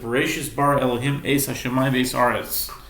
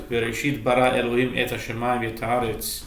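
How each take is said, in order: First: Several t sounds are pronounced as s sounds. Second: Those same sounds are pronounced as t sounds.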